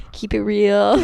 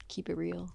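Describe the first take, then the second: First: Giggly, louder repeat of the phrase; laughing repeat. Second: Quiet trailing off. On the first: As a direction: say it again through a laugh. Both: Real, not acted.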